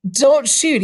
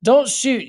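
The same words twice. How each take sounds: First: Higher, louder, controlled nervous plea. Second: High nervous plea; young man pleading. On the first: Young man facing a drawn gun, nervous plea. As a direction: hold back the fear as you beg. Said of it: "trying to control his nervousness". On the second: Young stranger begging the gunman, nervous plea. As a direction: beg him not to shoot. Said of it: "he said". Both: Acted.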